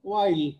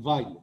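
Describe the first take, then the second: First: The name begins with a W sound. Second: The name begins with a V sound. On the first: This is how Bengali speakers usually say it. "আমরা অনেক সময় সেটা করি না, ওয়াইল ওয়াইলস আইডেন্টিটি বলি" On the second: This is how German speakers say it. "German ভাষায় ডাব্লিউটাকে অনেকটা ভ ভ মতো উচ্চারণ করে"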